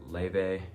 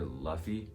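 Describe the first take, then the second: First: The name is said like 'Leve'. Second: The name is said like 'Luffy'. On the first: The speaker calls it right. "she said it herself that it's pronounced Leve" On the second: The speaker calls it wrong. "some people also pronounce it like Luffy"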